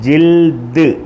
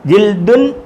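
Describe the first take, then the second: First: The word ends on a bare consonant. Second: The word ends with an -un sound. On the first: This is the form used when stopping at a full stop. "പറയുന്നത് ജിൽദ്" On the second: This is the written form with the ending. "ജിൽദുന്നാണ് എഴുതിയേക്കുന്നത്"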